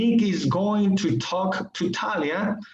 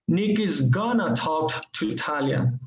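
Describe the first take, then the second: First: Going to is said fully as two words. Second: Going to is reduced to a quick gonna.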